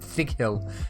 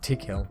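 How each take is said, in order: First: The name begins with a 'th' sound. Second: The name begins with a plain 't' sound. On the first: The speaker calls it wrong. "I kept saying Thick Hill" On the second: The speaker calls it right. "instead of Tick Hill"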